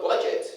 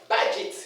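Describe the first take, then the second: First: Budget as "BOH-jet"; mispronunciation. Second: Budget as BA-jit; correct pronunciation. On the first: Teacher shows what not to say, mispronunciation. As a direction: round "budget" to an o sound. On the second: Teacher contrasts it with the wrong form, correct pronunciation. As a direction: open "ba" at the start of "budget". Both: Shown as a demonstration. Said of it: "not budget".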